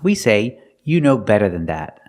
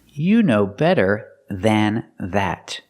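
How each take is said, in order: First: The sentence is said at normal speed. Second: The sentence is said slowly.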